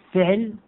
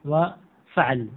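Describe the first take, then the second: First: فعل said "fi'l", i after the f; one syllable, short i in فعل; fi'l form. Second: وفعل said "wa... fa'l", a after the f; slow, short a and silent-vowel ayn in وفعل; fa'l form. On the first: Teacher shows allowed variant to class, pronounced fi'l. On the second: Teacher shows other variant to class, pronounced fa'l. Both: Shown as a demonstration. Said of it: "اللغات الثلاث".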